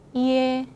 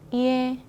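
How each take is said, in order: No difference in how they are said.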